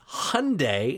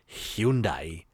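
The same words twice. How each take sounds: First: Hyundai is said in the Americanized way. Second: Hyundai is said in a non-Americanized way. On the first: "it's just the Americanized version" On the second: "they both pronounced it Hyundai"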